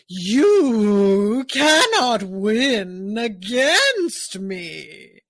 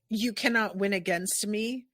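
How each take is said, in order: First: The syllables are drawn out long, like Kumadori. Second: The syllables are said at normal length.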